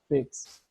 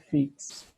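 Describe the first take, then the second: First: The vowel sounds closer to 'e'. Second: The vowel sounds like a clear 'i'. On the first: The speaker calls it right. "É com somzinho de E" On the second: The speaker calls it wrong. "não é fix"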